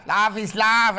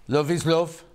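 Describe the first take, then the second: First: Higher, louder mock London accent on "love is love"; hammed-up London "lav is lav". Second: Said in the usual way. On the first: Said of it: "meant to be a London accent". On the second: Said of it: "she doesn't talk like that".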